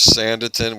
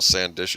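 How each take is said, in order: First: The middle is said with a plain 't' sound. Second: The middle is said with a 'shun' sound. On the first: The speaker calls it right. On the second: The speaker calls it wrong.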